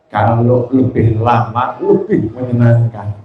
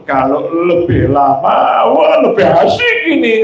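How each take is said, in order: First: Lower, slow, contented request; a hint of a pleased husband; grateful husband. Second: Happy, delighted. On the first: Husband thanks wife for the massage, lower and slow. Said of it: "yang satu kalimatnya syukur". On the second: Acted. Husband enjoying his wife's massage, sing-song delight. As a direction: ham up the husband's pleasure. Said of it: "sama seneng ngomongnya".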